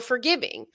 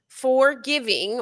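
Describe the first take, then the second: First: It is said as one ordinary word. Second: It is split into two words, for and giving. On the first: Pardoning others. "in the process of forgiving" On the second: Living for the sake of giving. "in the process of giving"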